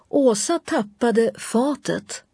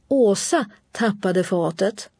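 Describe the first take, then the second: First: The stress falls on the last word. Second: The stress falls on the first word. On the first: What was dropped is the new information. "Genom betoningen förmedlas den nya informationen att det var fatet" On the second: Who dropped something is the new information. "genom betoningen av Åsa markera vad som är ny information"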